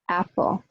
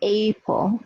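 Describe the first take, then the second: First: The first vowel is a short a sound. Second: The first vowel sounds like the letter name A. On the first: The speaker calls it right. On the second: The speaker calls it wrong.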